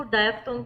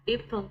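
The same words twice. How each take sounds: First: "डायफ्थोंग" with a "dye" start, like "daay-fthong"; diphthong said "dye". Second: "डिप्थोंग" with a short "dip" start and a "th" sound; diphthong said "dip". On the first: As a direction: say "डायफ्थोंग" starting on the dai sound. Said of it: "इसको डायफ्थोंग भी बोलते हैं". ("डायफ्थोंग" को "डाय" वाली आवाज़ से बोलना) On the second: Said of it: "डिप्थोंग भी बोलते हैं". ("डिप्थोंग" को "डिप" की तरह छोटी इ से बोलना) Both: Shown as a demonstration.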